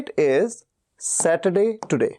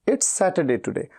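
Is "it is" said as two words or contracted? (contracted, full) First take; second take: full; contracted. First: "It is" is said as two full words. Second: "It is" is shortened to "it's". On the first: The speaker calls it wrong. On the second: The speaker calls it right.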